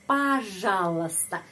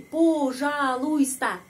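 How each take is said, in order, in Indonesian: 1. Huruf o dibaca seperti a, dan huruf i tidak dibaca. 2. Semua huruf dibaca, dengan o yang jelas. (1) "huruf o ini dibaca a" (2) "Kalau huruf per huruf jadi begini"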